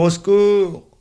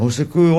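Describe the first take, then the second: First: Even higher, loud desperate cry; cry for help. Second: Loud, high cry for help. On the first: Boy running through the park, crying out higher. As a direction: push the second cry higher. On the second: Boy running through the park, calling for help. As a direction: call for help while running. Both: A narrator's reading. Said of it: "la puce court en criant".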